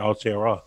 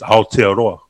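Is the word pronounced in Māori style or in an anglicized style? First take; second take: anglicized; Māori. First: It is pronounced with flattened English vowels. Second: It is pronounced with careful Māori vowels. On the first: The speaker calls it wrong. "who would just refuse to say it correctly" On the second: The speaker calls it right. "he actually says Aotearoa. Like, it's really good"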